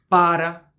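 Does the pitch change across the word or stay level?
level. Both syllables stay on the same pitch. "com a mesma nota"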